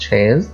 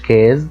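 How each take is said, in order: First: The word starts with an sh sound. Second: The word starts with a k sound. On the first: The speaker calls it right. "لأ قُلت chaise" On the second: The speaker calls it wrong. "ما قُلتش case"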